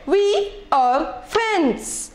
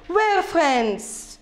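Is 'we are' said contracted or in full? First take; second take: full; contracted. First: We and are are said as two full words. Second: We and are merge into one short syllable. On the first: "this is not the short form" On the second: "Let's read it with the short form"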